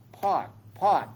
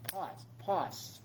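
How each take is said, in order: First: Firm meditation noting of each pause; name each pause as it comes; noting aloud. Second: Softer meditation noting, fading. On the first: Teacher shows the class how to note, firm. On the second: Teacher shows the class the noting, fading softly. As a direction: let each pause drop away quietly. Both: Shown as a demonstration. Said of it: "we call pause".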